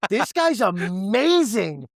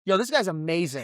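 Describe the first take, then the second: First: Higher, stretched out, savouring each word; drawn-out high awe at his host; slow high delighted praise. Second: Delighted praise. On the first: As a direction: repeat it slower, marveling. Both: Real, not acted.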